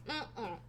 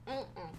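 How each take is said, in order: Both takes have the same delivery.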